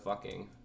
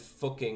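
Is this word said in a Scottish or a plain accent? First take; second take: plain; Scottish. First: It is said in the speaker's plain accent. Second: It is said in an imitated Scottish accent. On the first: "instead of" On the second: "fucking instead of fucking"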